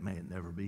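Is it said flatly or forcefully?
flatly. It is said flatly, without force.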